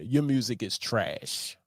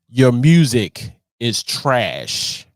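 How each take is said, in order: First: It is said at normal volume. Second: It is said more loudly.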